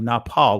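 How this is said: It is said in an ancient Hebrew pronunciation. "in the ancient Hebrew"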